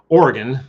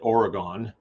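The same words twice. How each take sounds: First: It is pronounced the way locals say it. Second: It is pronounced the way outsiders say it. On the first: The speaker is from the place. "that's how you say it if you're from there" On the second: The speaker is not from the place. "Everybody else calls it Oregon"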